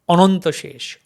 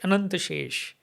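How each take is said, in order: First: The vowels sound like a rounded 'o'. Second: The vowels sound like an open 'a'. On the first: This is how Bengali speakers say it. "But Bengali will say" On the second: This is how Hindi speakers say it. "In Hindi speaking"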